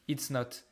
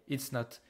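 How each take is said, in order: The two takes are said the same way.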